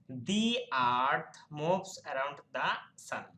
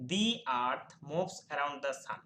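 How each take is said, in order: First: "The" before earth as "dhi", "the" before sun as "dha", very slow and clear; dhi then dha. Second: "The" before earth as "dhi", "the" before sun as "dha", slow; dhi then dha. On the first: Teacher giving the correct pronunciation to students, slow and clear. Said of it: "সঠিক pronunciation হবে". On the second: Teacher contrasting both sounds of "the" in one sentence, slowly. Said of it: "উচ্চারণ করছি দি". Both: Shown as a demonstration.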